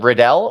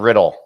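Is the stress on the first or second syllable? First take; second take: second; first. First: The stress is on the second syllable. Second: The stress is on the first syllable. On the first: The speaker calls it wrong. "do you put emphasis on L like Riddell" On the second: The speaker calls it right. "it's always Trachaic"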